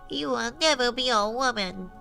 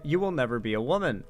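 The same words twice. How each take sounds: First: It is said in a childlike VTuber voice. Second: It is said in his normal voice.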